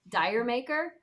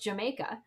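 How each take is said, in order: First: It sounds like the words dire maker. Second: It sounds like the word Jamaica. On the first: The speaker calls it wrong. "I always heard pronounced like" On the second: The speaker calls it right. "it's actually based on like it's called it's pronounced Jamaica"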